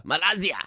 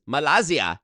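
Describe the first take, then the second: First: "Malaysia." said ma-LIE-zi-a; Malaysia said mock. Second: "Malaysia" said ma-LA-zi-a, mangled; mispronounced Malaysia. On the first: Reading the country list, "Malaysia." as ma-LIE-zi-a. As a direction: stretch "Malaysia." into ma-LIE-zia. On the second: Joking about country names, "Malaysia" said ma-LA-zi-a. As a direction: say "Malaysia" wrong as ma-LA-zia. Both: Shown as a demonstration. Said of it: "not Malaysia".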